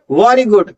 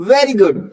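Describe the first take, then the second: First: "very good" turned into "vaari good"; wrong W for V. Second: "very good" with V and open "veh"; proper V sound. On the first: Teacher rejecting the mistake, "very good" as "vaari good". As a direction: slowly say "very good" with rounded lips and "aa". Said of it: "not very good". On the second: Teacher giving the right version, "very good" with a V. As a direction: slowly model "very good" with teeth on lip. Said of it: "this is very good". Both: Shown as a demonstration.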